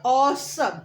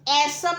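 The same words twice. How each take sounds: First: ऑसम with a rounded open "aw" vowel, "aw-sum"; correct pronunciation. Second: ऐसम with a flat "ae" vowel, "esum"; wrong pronunciation. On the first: Teacher modelling the right ऑसम for beginners. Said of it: "हम बोलते हैं ऑसम". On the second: Teacher showing beginners the mistaken ऐसम. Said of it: "हम ऐसम नहीं बोलते". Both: Shown as a demonstration.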